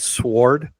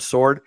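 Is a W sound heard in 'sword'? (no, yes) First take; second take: yes; no. First: The word is said with a W sound. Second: The word is said without a W sound. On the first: The speaker calls it wrong. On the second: The speaker calls it right.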